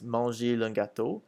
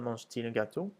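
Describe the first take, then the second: First: Mange runs straight into il with no T. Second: A T sound separates mange from il. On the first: The speaker calls it wrong. "if we didn't, it would sound like this" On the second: The speaker calls it right. "we add a T"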